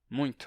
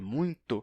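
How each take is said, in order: First: The t carries a faint hissing sound. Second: The t is a clean stop without hissing. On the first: "ainda é comum fazer um leve chiadinho, bem fraco" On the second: "com T puro"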